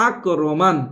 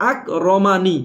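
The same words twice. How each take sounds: First: আক রমান closed on a vowelless n; stopped ending. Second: আক রমানি with final ni sounded; unstopped ending. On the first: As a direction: end আক রমান on n, no i after it. (থেমে শেষে যোজম দিয়ে আক রমান) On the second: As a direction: give the last n an i vowel in আক রমানি. (না থেমে শেষে নি দিয়ে আক রমানি) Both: Shown as a demonstration. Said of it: "থামলে".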